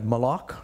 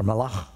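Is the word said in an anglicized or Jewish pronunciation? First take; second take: anglicized; Jewish. First: The word is said with an anglicized pronunciation. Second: The word is said with a Jewish Hebrew pronunciation.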